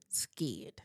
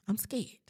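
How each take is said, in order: First: Breathy whispered admission; whispered scared. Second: Said in the usual way. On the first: Shown as a demonstration. Correcting herself, a whispered scared. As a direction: confess it under your breath. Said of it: "I'm not scared, scared". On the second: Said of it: "I'm not scared".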